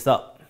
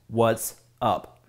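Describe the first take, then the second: First: The two words are squeezed into one syllable. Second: The two words are said as two syllables.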